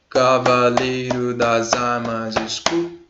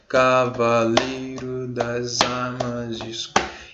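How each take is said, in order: First: It is recited at a faster, quickened pace. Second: It is recited at a slower, steady pace.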